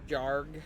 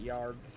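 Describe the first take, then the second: First: The name begins with a J sound. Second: The name begins with a Y sound. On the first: This is how most people say it. "most people would pronounce it" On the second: This is the speaker's own way of saying it. "I pronounce it"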